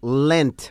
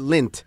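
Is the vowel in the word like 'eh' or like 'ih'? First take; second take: eh; ih. First: The vowel sounds like 'eh'. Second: The vowel sounds like 'ih'. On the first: The speaker calls it right. "En inglés se conoce como Lent" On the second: The speaker calls it wrong. "I used to call it Lint"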